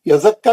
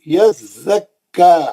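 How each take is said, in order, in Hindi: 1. दोहरे व्यंजन को जल्दी से निकाल दिया जाता है। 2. दोहरे व्यंजन को रोका जाता है और साफ़ अलग किया जाता है। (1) "यज़क्का नहीं है" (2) "ऐसा तोड़ तोड़ के पढ़ना"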